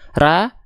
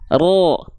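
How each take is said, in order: First: The syllable has a thin, open a vowel. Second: The syllable has a dark, o-like vowel. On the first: The speaker calls it wrong. "tapi keluarnya masih vokal A" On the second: The speaker calls it right. "buka mulut dan angkat pangkal lidahnya"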